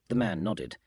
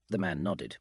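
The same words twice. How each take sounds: The two takes are said the same way.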